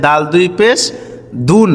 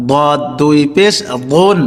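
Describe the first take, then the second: First: Light dental d in দাল and দুন; দুন as a thin DOON; plain dal. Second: বদ and বুন with thick, full-mouthed d; বুন as a heavy, rounded DAWN; heavy dad. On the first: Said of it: "এই হরফটির উচ্চারণ হচ্ছে". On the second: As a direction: say বদ as dark, emphatic DAWD. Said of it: "আর এর দদ". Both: Shown as a demonstration.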